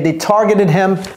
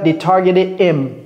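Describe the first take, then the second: First: The h at the start of him is pronounced. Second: The h at the start of him is dropped. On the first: The speaker calls it right. "Donc ici, vous prononcez le H" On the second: The speaker calls it wrong. "C'est pas they targeted him, non"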